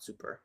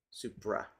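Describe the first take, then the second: First: "super" with an r-coloured final syllable; mistaken "super" pronunciation. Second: "Supra" with the r before the final vowel; corrected "Supra" pronunciation. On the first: Correcting the term suprasegmental, "super" as the mistaken form. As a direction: say "super" ending in -er. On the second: Correcting the term suprasegmental, "Supra" as the proper form. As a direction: say "Supra" ending in -ra. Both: Shown as a demonstration. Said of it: "It's not super".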